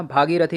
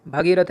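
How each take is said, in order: First: भागीरथी opened with long "bhaa"; correct pronunciation. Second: भगीरथ opened with short "bha"; wrong pronunciation. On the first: Teacher correcting the word, भागीरथी with long first vowel. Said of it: "भागीरथी होता है". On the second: Teacher showing the wrong form, भगीरथ with short first vowel. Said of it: "भगीरथ नहीं होता". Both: Shown as a demonstration.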